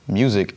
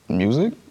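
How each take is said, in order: First: It is said like an excited exclamation. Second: It rises like a doubtful question.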